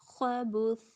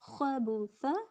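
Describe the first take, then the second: First: The word ends on a bare consonant. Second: The word ends on a short vowel.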